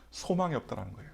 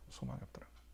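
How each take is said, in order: First: Said in the usual way. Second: 소망이 없다라는 거예요 whispered, unvoiced. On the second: Shown as a demonstration. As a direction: breathe the line out as a whisper. Repeats line in a whisper. (속삭이듯)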